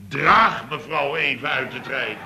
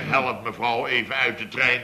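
First: Draag pushed a little and set against Help; stress on Draag. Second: Said in the usual way. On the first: Shown as a demonstration. Correcting the nephew, stress on Draag. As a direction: lean on the word Draag. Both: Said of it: "dan zeg ik niet".

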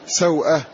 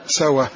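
First: "سوءة" as saw-ah, glottal stop after the w; hamza pronounced. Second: "سوى" as sa-wah, w carrying the vowel; hamza dropped. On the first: Teacher contrasting original with eased form, hamza pronounced in "سوءة". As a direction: sound the hamza clearly in "سوءة". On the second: Teacher deleting the hamza after moving its vowel, "سوى" run together. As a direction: say "سوى" with no glottal stop. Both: Shown as a demonstration. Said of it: "واحذف الهمزة".

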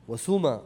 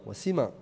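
First: وسما said as wa-suma, with u after the s; u before final a. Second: وسما said as wa-sima, with i after the s; i before final a. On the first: Teacher listing dialect forms, suma with a u. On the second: Teacher listing dialect forms, sima with an i. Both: Shown as a demonstration. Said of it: "بعض العرب تنطقه".

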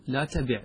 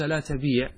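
First: "لا تبع" with a short i, la tabiʕ; short vowel. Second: "لا تبيع" with a long ee, la tabeeʕ; long vowel. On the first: Teacher confirms the right form, "تبع" with short i. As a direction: keep the vowel of "تبع" brief. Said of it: "أنك تقول". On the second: Teacher shows the clashing consonants, "تبيع" with long ee. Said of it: "التقى ساكنان". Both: Shown as a demonstration.

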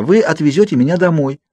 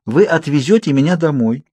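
First: High, imploring insistence; pleading. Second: Higher, steady insistence; determined persistence. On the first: Girl starting her plan for the Cullens, pleading. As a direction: push the plea upward. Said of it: "взмолилась я". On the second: Girl resuming her plan over Edward's objection, determined. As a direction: carry on firmly despite the interruption. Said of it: "у меня хватило сил продолжать". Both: A narrator's reading.

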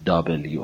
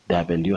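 First: دابلیو with an open first vowel, "double-you"; correct letter name. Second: دبلیو with a flattened first vowel, "dab-el-yu"; mistaken letter name. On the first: Teacher correcting learners, دابلیو as "double-you". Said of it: "تلفظ صحیحش". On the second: Teacher citing a mistake, دبلیو as "dabelyu". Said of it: "تلفظ غلطی هست". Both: Shown as a demonstration.

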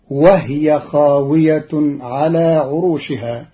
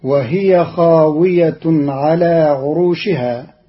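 First: وهي said "wahya", no vowel on the h; silent-vowel haa. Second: Said in the usual way. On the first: Shown as a demonstration. Teacher shows Qalun's reading, وهي with vowelless haa. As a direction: close the h of وهي straight onto the y. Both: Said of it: "بإسكان الهاء تخفيفا".

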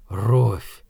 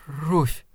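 First: Low, hollow utterance; empty, lifeless. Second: Soft, timid little answer; faltering murmur. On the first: Shaken man repeating the woman's name, empty and lifeless. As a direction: say it lower, drained of life. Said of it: "Голос его звучал пусто и безжизненно". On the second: Frightened woman giving her name to the man, faltering murmur. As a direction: barely get the name out, softly. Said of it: "— запинаясь, пролепетала она". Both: A narrator's reading.

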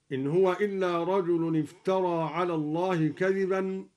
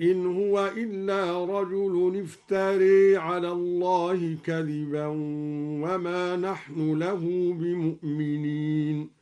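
First: Said in the usual way. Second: افترى ending tilted to e, iftere; افترى with full imala. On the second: Shown as a demonstration. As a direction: lean the end of افترى toward e. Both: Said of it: "أمال افترى هكذا".

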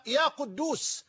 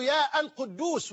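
First: يا قدوس as "ya Quddoos"; vocative without article. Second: يا القدوس as "yaa al-Quddoos"; wrong vocative with article. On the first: Teacher shows the correct form, يا قدوس without article. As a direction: run يا straight into قدوس. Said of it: "وإنما". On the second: Teacher shows what not to say, يا القدوس with article. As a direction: sound the "al" after long يا in القدوس. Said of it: "لا تقول". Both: Shown as a demonstration.

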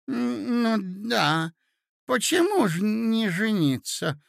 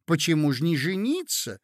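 First: Put-on high, hesitant old prince; befuddled agreement. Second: Said in the usual way. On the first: A narrator's reading. Prince echoes the ladies' urging, befuddled and agreeing. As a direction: go along with it, high and confused. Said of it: "поддакивал князь, сбитый с толку". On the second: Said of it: "закричали со всех сторон".

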